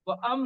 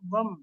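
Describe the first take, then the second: First: Wa is said apart, then a separate am. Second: Wa runs straight into m as one syllable. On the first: The speaker calls it wrong. "व अम नहीं पढ़ना है इसको" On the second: The speaker calls it right. "बल्कि वम"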